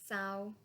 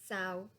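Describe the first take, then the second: Both takes have the same delivery.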